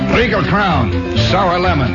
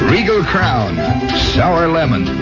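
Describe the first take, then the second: First: It is said in a firm British accent. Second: It is said in the speaker's ordinary accent.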